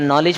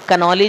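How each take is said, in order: First: The initial k sound is silent. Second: The initial k sound is pronounced. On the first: This is how it is read. "नॉलेज पढ़ते हैं इसको" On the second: This is how it is written. "कनॉलेज है"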